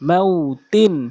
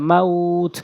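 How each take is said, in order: First: The word ends with a nasal 'in' syllable. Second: The word stops short on the final consonant.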